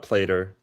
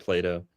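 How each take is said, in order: First: Put-on Appalachian accent, "Plater" with an r ending; Appalachian twang on "Plater", PLAY-ter. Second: Said in the usual way. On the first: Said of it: "My App-, Appalachian accent". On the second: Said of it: "or, sorry, you brought up Plato".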